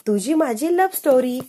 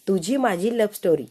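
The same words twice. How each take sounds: First: Eager game answer; excited answer. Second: Said in the usual way. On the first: Acted. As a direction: blurt the answer proudly. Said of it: "अक्षय म्हणतो". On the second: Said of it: "रमाकडे हात करून म्हणून टाकलेलं".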